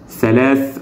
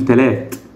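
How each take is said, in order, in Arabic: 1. الكلمة تبدأ بصوت th. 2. الكلمة تبدأ بصوت t.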